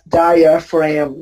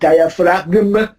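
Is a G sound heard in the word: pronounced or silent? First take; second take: silent; pronounced. First: The word is said with no G sound. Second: The word is said with a G sound. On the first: The speaker calls it right. "you pronounce it as diaphragm ... the G is silent" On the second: The speaker calls it wrong. "not diaphragm"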